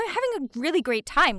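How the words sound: It is said with upbeat, enthusiastic energy.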